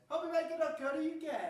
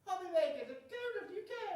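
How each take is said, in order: First: It is said in a normal voice. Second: It is said in a put-on elf voice.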